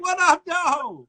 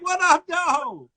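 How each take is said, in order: First: It is said in a warm, cheerful tone. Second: The same.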